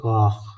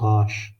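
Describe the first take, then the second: First: The word ends in a kh sound. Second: The word ends in an sh sound. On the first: "some people pronouncing as a Khe" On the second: "pronouncing also like in Pashto language this letter as a Shin"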